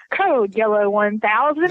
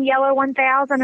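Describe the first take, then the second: First: Slow, lower announcer read; imitating a store speakerphone page; mock speakerphone announcement. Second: Said in the usual way. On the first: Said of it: "putting it on the speakerphone".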